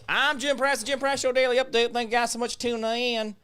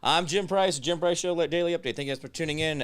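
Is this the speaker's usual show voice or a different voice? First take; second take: different; usual. First: It is said in an unusual, different voice. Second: It is said in his usual show voice.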